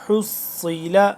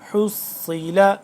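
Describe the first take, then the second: Both takes have the same delivery.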